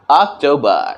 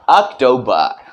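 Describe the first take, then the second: The two takes are said the same way.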